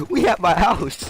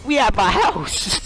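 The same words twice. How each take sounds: First: Said in the usual way. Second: Higher, slowed "we at my house" in disbelief; slow dawning shock on "we"; stunned realization. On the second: Retold or imitated. After kicking down the shed door, stunned and slow.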